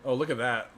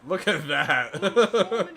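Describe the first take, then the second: First: Said in the usual way. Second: Slow, drawn out with a laugh. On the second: Real, not acted. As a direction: chuckle through it slowly.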